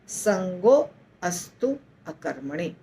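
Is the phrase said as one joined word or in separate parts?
separate. The phrase is split into three separate parts. "इसको हम तीन भागों में बांटेंगे"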